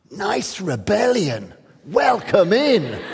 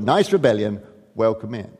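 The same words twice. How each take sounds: First: Slow, amused and patronising; condescending. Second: Said in the usual way. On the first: Retold or imitated. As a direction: drawl it down at a young upstart. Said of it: "the art world sort of looks down and sort of goes". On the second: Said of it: "That's why I've called my lecture".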